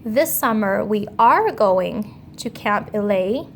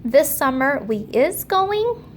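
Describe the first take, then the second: First: "are" given a clear rising stress; "we are going" with a firm lift on "are"; correct word stressed. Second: "we is going" with "is" stretched and pitched way up; wrong word stressed. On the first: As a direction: land on "are" to show it's right. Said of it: "The word that we want there is the word are". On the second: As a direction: lean hard on "is" so it sounds wrong. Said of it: "The next thing that you will notice is the word is". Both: Shown as a demonstration.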